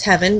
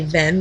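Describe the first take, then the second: First: It is two syllables starting with an h. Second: It is one syllable with no h sound. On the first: This version helps you remember it. "I like to pronounce it as heaven" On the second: This is probably the real pronunciation. "probably Ven"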